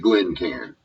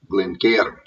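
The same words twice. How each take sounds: First: It is said in a Texan accent. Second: It is said in an imitated Scottish accent. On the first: "I'm a Texas hick" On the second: "Probably in Scotland, it's something sort of semi-close to"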